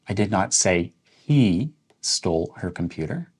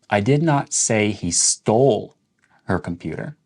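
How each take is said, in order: First: The stress falls on "he". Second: The stress falls on "stole". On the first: Someone else stole it. "Let's emphasize the word he" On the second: He may have borrowed or lost it. "Let's emphasize the word stole"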